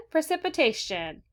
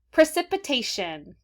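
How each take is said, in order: First: "Precipitation" said higher, falling at the end; higher repeat. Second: "Precipitation" said slowly, each syllable clear; model word. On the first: Teacher says the word again for the class, higher. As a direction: lift "Precipitation" up high, then fall. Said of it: "Say it again". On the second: Teacher models the week's favorite word, slow and clear. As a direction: say "Precipitation" slowly for kids to echo. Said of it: "let's say the word". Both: Shown as a demonstration.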